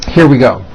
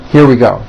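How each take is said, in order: The two takes are said the same way.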